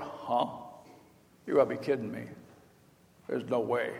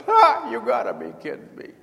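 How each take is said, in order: First: Low, soft, muttered disbelief; the old man can't believe his ears; stunned disbelief. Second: High, cackling scoff; mocking cackle. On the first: Retold or imitated. Abraham hears he'll have a son, stunned and quiet. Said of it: "And Abraham went". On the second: Sarah in the tent corner, cackling in disbelief. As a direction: laugh it off as absurd. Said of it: "cackling because there's no way".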